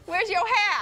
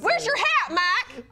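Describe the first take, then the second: First: It is said in a put-on urban slang accent. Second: It is said in a put-on country accent.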